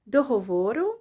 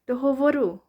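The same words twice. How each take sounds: First: The stress falls on the first O. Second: The stress falls on the second O. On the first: "either the first O" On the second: "or the second one"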